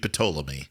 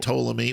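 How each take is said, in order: First: The initial P is pronounced. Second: The initial P is silent. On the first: This is the Greek pronunciation. "in Greek, it would be Ptolemy. ... you pronounce the P" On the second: This is the English pronunciation. "you say"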